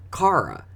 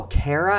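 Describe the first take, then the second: First: Cara as CAR-uh, high and slow; Philly-accented name. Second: Kara as CARE-uh, pitched up; intended name. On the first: Teacher agreeing but sounding different, Philly-accented name. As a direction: draw out Cara with an AH, higher. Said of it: "her accent said Cara". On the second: Newcomer finally getting the name, intended name. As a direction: ask Kara with an AIR vowel, higher. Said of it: "she was saying Kara". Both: Retold or imitated.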